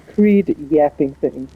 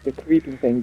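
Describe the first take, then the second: First: The phrase is drawled with an extra syllable. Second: The phrase is said plainly without a drawl. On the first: "You can say the creed yapping thing" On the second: "it's like the creeping thing"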